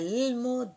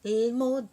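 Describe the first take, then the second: Both takes have the same delivery.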